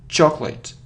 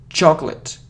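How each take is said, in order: No difference in how they are said.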